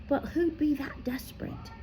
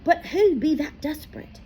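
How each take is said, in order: First: Hushed, breathless whisper; whispered question. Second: High, voiced, puzzled boy; wondering aloud. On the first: Harry wondering to himself, a soft whisper. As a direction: breathe it out in dread. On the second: Harry asking Firenze aloud, high and puzzled. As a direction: ask it out loud, troubled. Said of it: "he wondered aloud". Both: A narrator's reading.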